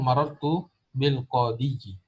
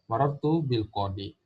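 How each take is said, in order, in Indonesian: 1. Kata terakhir berakhir dengan suku kata 'yi' yang ditambahkan. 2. Kata terakhir berakhir biasa dengan 'i' panjang. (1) "itu salah" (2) "Yang benar adalah"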